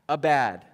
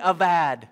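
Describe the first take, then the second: First: The middle consonant is a B sound. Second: The middle consonant is a V sound. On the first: The speaker calls it wrong. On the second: The speaker calls it right.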